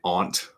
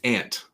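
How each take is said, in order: First: It is said with a fancy, put-on vowel. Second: It is said with a plain Midwestern vowel. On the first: This sounds affected to the speaker. "I don't say aunt. It sounds very put on" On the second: This is how the speaker normally says it. "to me, it's aunt, uh, and that's just my Midwestern aunt"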